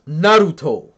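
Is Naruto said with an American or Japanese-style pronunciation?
Japanese-style. The word is said with a Japanese-style pronunciation. The speaker calls it right.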